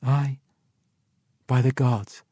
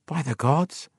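First: Lightly voiced woman, raised pitch; understated, falling affirmation; woman's answer. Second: Higher, unprojected voice, rising at the end; stunned, muttered oath; awed mutter. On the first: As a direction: confirm it, letting the end fall. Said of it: "the woman answered". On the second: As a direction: mutter it in dawning disbelief. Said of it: "he muttered". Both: A narrator's reading.

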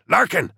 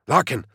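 First: Much higher, louder second call of "Larkin"; louder desperate call. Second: Raised urgent call of the name. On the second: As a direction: call his name sharply. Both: A narrator's reading. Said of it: "Corbeck hissed".

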